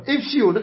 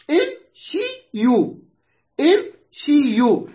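First: Said in the usual way. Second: امشيوا very slow, split im - shi - yu; syllable by syllable. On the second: Shown as a demonstration. Teacher showing the word's original form, slowly syllabified. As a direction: spell out امشيوا with each syllable stretched and separate. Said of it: "أصلها".

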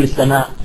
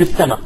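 First: "السماء" with the formal glottal stop at the end; long final vowel and hamza in "السماء"; full final hamza. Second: "السماء" ending open, as as-sama; hamza dropped. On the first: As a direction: sound out the hamza closing "السماء". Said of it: "ما نقول السماء". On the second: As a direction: leave the final glottal stop off "السماء". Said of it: "إذا بالحذف". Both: Shown as a demonstration.

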